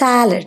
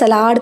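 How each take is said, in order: First: It is said the English way. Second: It is said the German-style way. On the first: The speaker calls it right. "പക്ഷെ ഇംഗ്ലീഷിൽ സാലഡ്" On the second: The speaker calls it wrong. "ചിലർ സലാഡ് എന്ന് പറയാറുണ്ട്. എനിക്ക് തോന്നുന്നത് ജർമ്മനിലൊക്കെ എങ്ങനെയാ സലാഡ്"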